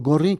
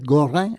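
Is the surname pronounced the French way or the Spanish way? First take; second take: Spanish; French. First: The surname is pronounced the Spanish way. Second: The surname is pronounced the French way.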